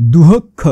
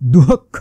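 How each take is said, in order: Both takes have the same delivery.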